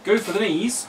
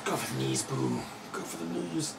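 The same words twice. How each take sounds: First: Louder cheering yell; loud battle cry. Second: Minsk. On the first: Pretend. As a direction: shout it to the table. Repeating the game quote. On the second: Retold or imitated.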